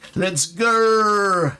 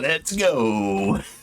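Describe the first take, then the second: First: It is said in a put-on Australian accent. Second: It is said in the speaker's usual accent.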